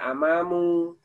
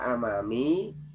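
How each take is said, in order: First: The word ends with a u vowel. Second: The word ends with an i vowel. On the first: "tidak dibaca amamu" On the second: "tidak dibaca amami"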